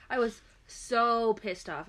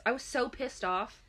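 First: "so" drawn out slowly; slow, emphatic repeat leaning on "so"; stress on so. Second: Said in the usual way. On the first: Real, not acted. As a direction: stretch out "so" for emphasis.

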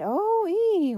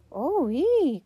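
First: Very high, loud drawn-out hoot; long high echo of a holler; echoing call. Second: High, loud two-note holler; boy's high hooting call. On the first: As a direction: sing it out like a returning echo. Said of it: "echoed back through the silent room". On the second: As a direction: call out into a big empty room. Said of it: "called one of the boys". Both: A narrator's reading.

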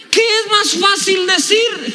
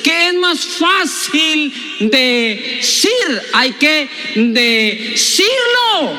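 First: High, slow proclaimed question; emphatic preaching cry. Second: Very slow, words pulled apart; drawn-out emphasis. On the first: Preacher repeating the key question to the church, high proclaiming cry. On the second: Preacher driving home "hay que decirlo", extremely drawn-out delivery. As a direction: stretch every word, breaking "decir" into pieces. Same question stretched out for emphasis. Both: Real, not acted.

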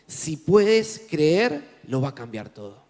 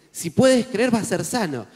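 First: "Si puedes creer" drawn out very slowly, rising on "puedes"; slow emphatic declaration. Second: Said in the usual way. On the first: Shown as a demonstration. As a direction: lay each word down slowly, "puedes" lifted. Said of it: "vamos a decir". (declarar "Si puedes creer" muy lento, subiendo en "puedes")

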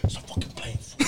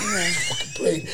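First: Hushed voiceless mock whisper; retold whisper. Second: Squeaky, much higher line broken by laughter; laughing retort. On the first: At the baptism, friend scolds him for the prank, whispering. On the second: Retold or imitated. Retelling the friend's reply at the baptism, laughing it out. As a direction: crack up while telling him off, slowly.

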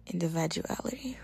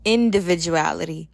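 First: Whispered individuality. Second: Said in the usual way. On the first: Real, not acted. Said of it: "That's crazy".

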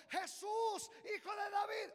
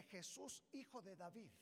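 First: Loud high cry. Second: Said in the usual way. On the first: Acted. Blind man calling to Jesus passing by, loud cry. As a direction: call out to Jesus at full voice. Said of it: "comenzó". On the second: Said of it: "por qué le dice".

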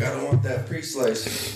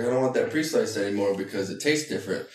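First: Slow, higher mock of the boy's line; imitating the son. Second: Said in the usual way. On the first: Boy at the deli counter, slow imitated complaint. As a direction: drag the words out like the boy did. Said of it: "was like". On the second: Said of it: "He's like".

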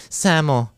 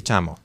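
First: The lazy s sound in "Samo"; lisped "samo". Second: "chamo" with a clear ch sound; the standard ch in "chamo"; proper "chamo". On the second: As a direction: say "chamo" with a crisp ch. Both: Shown as a demonstration. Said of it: "en vez de decir".

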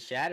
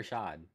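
First: "Shad" with the short a of "cat"; short-a pronunciation. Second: "Shad" said like "shahd"; open-ah pronunciation. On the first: Co-host asking which name is right, "Shad" with a flat cat vowel. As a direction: say "Shad" to rhyme with "bad". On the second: Co-host offering the other pronunciation, "Shad" with a long ah. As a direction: say "Shad" with the open vowel of "father". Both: Shown as a demonstration. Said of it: "Is it Shad or Shad?".

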